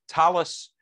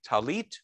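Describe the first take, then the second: First: It is said with an Ashkenazi pronunciation. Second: It is said with a Sephardic pronunciation.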